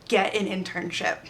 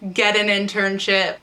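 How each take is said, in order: First: It is said at normal speaking volume. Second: It is said louder, with more force.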